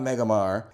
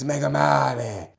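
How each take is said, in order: First: The ending is said the plain English way. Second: The ending is said the Italian way. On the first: The speaker calls it wrong. "It's not Megamar" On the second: The speaker calls it right. "pronounce the mare in a Italian flair kind of way"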